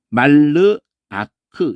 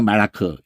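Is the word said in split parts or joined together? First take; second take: split; joined. First: The word is broken into separate parts. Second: The word is run together smoothly. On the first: "말르 아크 이렇게 읽으시다가" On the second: "나중에 말아크 이렇게"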